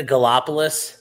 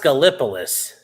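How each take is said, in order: First: "Gallipolis" said as guh-LOP-uh-liss, rising; questioning guh-LOP-uh-liss for "Gallipolis"; queried pronunciation. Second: "Gallipolis" said as guh-LIP-uh-liss; corrected pronunciation. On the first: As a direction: ask "Gallipolis" with a LOP syllable. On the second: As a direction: firmly stress LIP in "Gallipolis". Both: Shown as a demonstration. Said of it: "It's pronounced Gallipolis".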